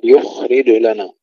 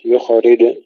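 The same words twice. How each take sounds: First: يخرج with flowing خ and echoed ج; slow recitation of يخرج, no vowel after kh; still kha, bounced jim. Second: يخرج with a vowel after kh; wrongly bounced kha. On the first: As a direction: let خ flow and bounce only ج in يخرج. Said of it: "وسكون الخاء مع الرخاوة". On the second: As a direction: mistaken recitation of يخرج, "yukhorij" with echoed خ. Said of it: "ننتبه ألا نقلقل الخاء". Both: Shown as a demonstration.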